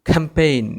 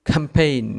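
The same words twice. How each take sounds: Both takes have the same delivery.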